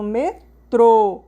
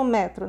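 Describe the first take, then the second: First: "metrô" stressed on a strong final TRÔ; "metrô" with a closed, emphatic ô; stress on final syllable. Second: "metro" stressed on ME, open e; "metro" said quickly with a weak ending; stress on first syllable. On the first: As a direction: break it as me-TRÔ, "metrô" loud at the end. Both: Shown as a demonstration. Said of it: "você viu que mudou o som".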